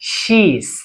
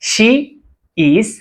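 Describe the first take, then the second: First: The two words merge into one syllable. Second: Both words are said in full, separately. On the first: "contraction sound"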